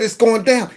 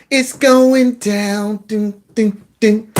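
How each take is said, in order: First: Said in the usual way. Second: Slow mocking drawl. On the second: Host mimics a supporter's words, slow and drawn out. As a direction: stretch out "It's going down" slowly, mocking her. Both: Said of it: "She said".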